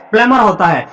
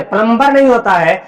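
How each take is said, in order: First: प्लमर with silent b, plum-er; right pronunciation shown. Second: प्लम्बर with the b sounded, plum-ber; wrong pronunciation shown. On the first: Teacher correcting students, silent b in plumber. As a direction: drop the b: प्लमर. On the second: Teacher showing students the common mistake, b pronounced. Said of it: "ये गलत है". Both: Shown as a demonstration.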